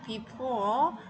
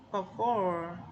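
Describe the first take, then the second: First: The first syllable is a long 'bee' sound. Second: The first syllable has a short, reduced vowel. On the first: The speaker calls it wrong. "be고 for이니까 before" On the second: The speaker calls it right. "for하고 hind가 붙어서 얘는 before"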